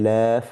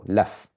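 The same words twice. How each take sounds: First: The vowel is drawn out long. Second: The vowel is kept short. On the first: The speaker calls it wrong. "we don't say laf" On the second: The speaker calls it right. "So it's recited like this"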